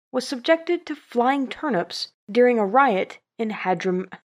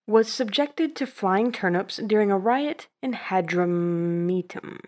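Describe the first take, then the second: First: Hadram- breaks off mid-word; stumbled reading. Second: Hadrumetum said fully as had-rum-EE-tum; clean retake. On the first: Real, not acted. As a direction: trip over the name. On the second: Shown as a demonstration. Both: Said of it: "now I can't say this word".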